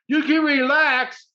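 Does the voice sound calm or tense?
tense. It is said in a brisk, tense voice. The listener is not reassured. The speaker calls it wrong. "Not, you can relax. That doesn't relax you"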